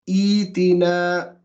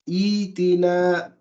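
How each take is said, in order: The two takes are said the same way.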